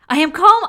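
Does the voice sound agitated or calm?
agitated. The voice sounds tense, hurried and agitated. The feeling does not match the words. The speaker calls it wrong. "That did not feel calm at all"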